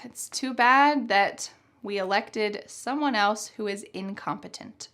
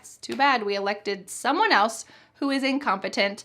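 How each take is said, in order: First: The tone of voice is serious. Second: The tone of voice is lighthearted. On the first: The speaker is truly upset about the situation. "If your tone of voice is more serious" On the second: The speaker treats the situation half-jokingly. "in kind of a more lighthearted way"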